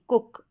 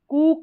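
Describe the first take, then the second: First: The vowel is a short oo sound. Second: The vowel is a long oo sound. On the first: The speaker calls it right. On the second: The speaker calls it wrong.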